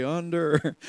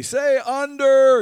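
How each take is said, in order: First: Said in the usual way. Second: Loud, high, drawn-out prompt to the crowd; raised, stretched call-and-response cue; calling out to the room. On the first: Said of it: "and you'd say". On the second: Retold or imitated. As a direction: call it out for everyone to repeat. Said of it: "I'd say".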